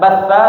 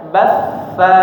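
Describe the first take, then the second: First: The doubled f is rushed and cut short. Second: The doubled f is held and drawn out slowly. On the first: The speaker calls it wrong. "Jangan terlalu cepat, jangan batfa, bukan batfa" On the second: The speaker calls it right. "tapi batfa"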